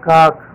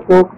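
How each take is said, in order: First: The vowel sounds like 'ah', as in cock. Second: The vowel sounds like 'oh', as in coke. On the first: The speaker calls it right. "इसका सही pronunciation है काक" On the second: The speaker calls it wrong. "बहुत से लोग काक को कोक पढ़ते हैं, वो गलत है"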